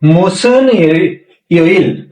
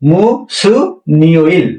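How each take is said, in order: First: The two words are said separately, without linking. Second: The final n carries over into the next syllable.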